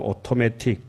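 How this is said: It has a British accent with a crisp t. "영국 발음은"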